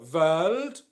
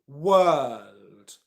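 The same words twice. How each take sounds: First: It begins with a V sound. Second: It begins with a W sound. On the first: The speaker calls it wrong. "It's not ver or world" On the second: The speaker calls it right. "It's world"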